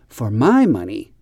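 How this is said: The word my carries the stress. The speaker calls it right. "we always stress the word my. We always say for my money"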